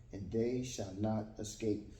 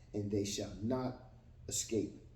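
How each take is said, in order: No difference in how they are said.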